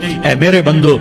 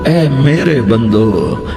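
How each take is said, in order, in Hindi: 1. यह सपाट, सीधे लहजे में कहा गया है। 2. यह कोमल, प्यार भरे लहजे में कहा गया है।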